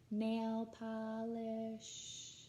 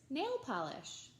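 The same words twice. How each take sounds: First: It is said on one pitch, sound by sound. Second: It is said with natural, flowing pitch.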